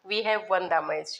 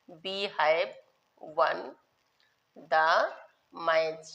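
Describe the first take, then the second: First: Said in the usual way. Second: One word at a time; long pauses between the words of the example; slow dictation. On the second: Shown as a demonstration. Teacher dictating an English example to pupils, slow dictation.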